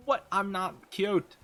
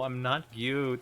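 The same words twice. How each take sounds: First: Slow high flustered protest; flustered denial. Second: Said in the usual way. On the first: Real, not acted.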